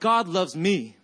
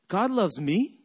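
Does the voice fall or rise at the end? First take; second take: falls; rises. First: The pitch falls at the end. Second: The pitch rises at the end. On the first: The speaker states it with confidence. "it didn't come out like God loves me" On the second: The speaker doubts that it is true. "I said it like this as a question mark"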